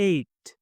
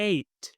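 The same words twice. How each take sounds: Both takes have the same delivery.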